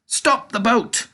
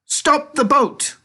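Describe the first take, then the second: First: High, slow command, a bit less loud; shouted. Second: Very high, loud, slow command; shouted. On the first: Narrator recalls Wonka's shout, high and slow. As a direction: call the stop again as a quote. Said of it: "When Mister Wonka shouted". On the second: Wonka shouts to the rowers, very high slow command. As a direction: halt them with a sudden yell. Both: A narrator's reading.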